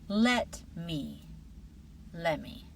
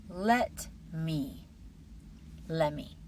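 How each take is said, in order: The two takes are said the same way.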